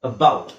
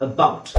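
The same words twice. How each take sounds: No difference in how they are said.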